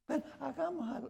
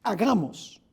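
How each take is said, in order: First: Hushed, offhand "Ven, hagamos algo" whispered casually; breathy offhand whisper, not a solemn decree. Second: "Hagamos" said aloud and deliberately, as one speaking to another; full-voiced, deliberate "Hagamos"; solemn declaration. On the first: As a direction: whisper it like a casual aside between friends. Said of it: "No, así no fue". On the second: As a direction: declare "Hagamos" like a real proposal. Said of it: "Alguien le está hablando a alguien". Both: Shown as a demonstration.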